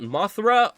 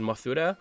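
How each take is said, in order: First: The name is said the English way, two syllables. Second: The name is said the Japanese way, three syllables.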